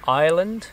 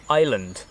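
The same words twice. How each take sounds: First: "Ireland" with a weird twang and an r sound, rising as a question; twangy, questioning "Ireland", pitched up. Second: "Island" with no r, like I-S-L-A-N-D, falling; "Island" without the twang, tune falling; Ireland sounding like island. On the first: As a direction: try "Ireland" as "ire-land", louder on a questioning lift. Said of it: "that weird twang". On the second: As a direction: say "Island" as "eye-land", the r dropped. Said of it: "Island just sounds like I S L A N D". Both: Shown as a demonstration.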